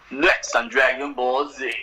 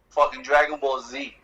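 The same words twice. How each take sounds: First: Slow whispered take on the TV preview announcer; mock preview announcer. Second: Said in the usual way. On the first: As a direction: breathe the show's preview line like a hushed mock announcer. Imitates the show's episode preview.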